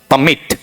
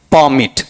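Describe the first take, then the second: First: "परमिट" as puh-MIT, weak first vowel; quick puh, weight on MIT in "परमिट"; verb pronunciation. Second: "परमिट" as PAA-mit, full first vowel; noun pronunciation. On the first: Teacher giving the verb form, verb pronunciation. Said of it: "verb में पढ़ेंगे तो". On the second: Teacher repeating the noun form, noun pronunciation. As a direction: lean on a long PAA in "परमिट". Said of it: "noun में पढ़ेंगे तो". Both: Shown as a demonstration.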